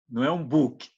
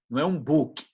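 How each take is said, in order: The two takes are said the same way.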